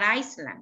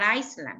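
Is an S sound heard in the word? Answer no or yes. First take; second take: yes; yes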